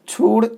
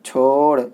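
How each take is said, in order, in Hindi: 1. स्वर एक लंबी 'oo' ध्वनि है। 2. स्वर एक लंबी 'o' ध्वनि है। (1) "छूड़ नहीं" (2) "मजहूल पढ़ना है"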